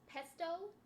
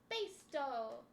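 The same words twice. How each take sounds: First: The first syllable sounds like the word pest. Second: The first syllable does not sound like pest. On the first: The speaker calls it wrong. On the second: The speaker calls it right.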